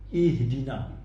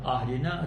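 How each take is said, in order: First: The word begins with an i vowel. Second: The word begins with an a vowel. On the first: The speaker calls it right. "Kita baca ihdina" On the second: The speaker calls it wrong. "tak ada orang baca ahdina"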